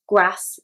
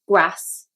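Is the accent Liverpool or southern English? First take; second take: Liverpool; Liverpool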